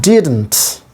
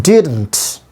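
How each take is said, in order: No difference in how they are said.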